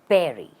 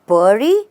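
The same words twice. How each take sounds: First: The stress is on the first syllable. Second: The stress is on the second syllable. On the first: The speaker calls it right. "The stress is on the first part" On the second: The speaker calls it wrong. "Then it's incorrect"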